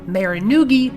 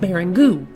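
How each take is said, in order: First: Every letter is sounded out as spelled. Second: The word is said in its standard form. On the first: The speaker calls it wrong. "when I was younger, I pronounced meringue" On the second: The speaker calls it right. "meringue should be pronounced meringue"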